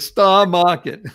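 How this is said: It is said in a Boston accent. "I'm using my Boston accent"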